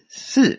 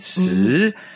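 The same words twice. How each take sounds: First: The pitch falls from high to low. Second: The pitch dips low and swings back. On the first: It means four. "So von oben nach unten" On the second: It means to die. "das ist der dritte Ton, das ist so unten schwingend"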